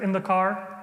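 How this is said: It is said in an American accent. "an American accent"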